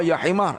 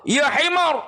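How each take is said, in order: First: Said in the usual way. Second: Higher imitated rebuke from the teacher; mock angry rebuke. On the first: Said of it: "Dia marah". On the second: Blind teacher scolds a wrong recitation, higher mock rebuke. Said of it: "Oh, dia marah".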